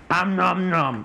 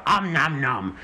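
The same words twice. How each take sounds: First: Playful munching noise; nom nom chomping. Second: Playful munching noise, demo; nom nom chomping. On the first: Pretend. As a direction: chomp it like a hungry fish. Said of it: "that om nom nom noise". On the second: Shown as a demonstration. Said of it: "So you go".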